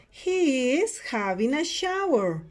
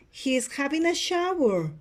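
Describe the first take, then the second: First: Slow, spaced-out repeat; slow it down for students to copy; model sentence for repeating. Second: Said in the usual way. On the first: Shown as a demonstration. Teacher repeats picture seven for students, slow model delivery. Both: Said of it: "Repeat after me".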